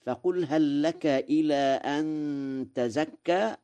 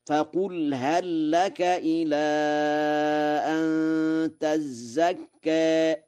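First: Said in the usual way. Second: تزكى with a doubled ز, held out slowly; slow, higher chant stressing the doubled ز in تزكى; Warsh reading, recited. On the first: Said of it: "قرأ ورش". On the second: Shown as a demonstration. Quran teacher reciting تزكى with a doubled ز. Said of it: "بتشديد الزاي في تزكى".

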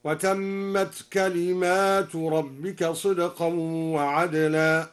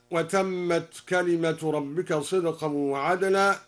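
First: Slow recitation, "كلمات" plural with long aa after m; al-Duri reading. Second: Said in the usual way. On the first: Shown as a demonstration. Teacher demonstrating the plural reading, "كلمات" chanted with a long aa. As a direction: stretch the alif after the m in "كلمات". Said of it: "بألف بعد الميم على الجمع هكذا". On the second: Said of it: "قرأ الدوري بألف بعد الميم".

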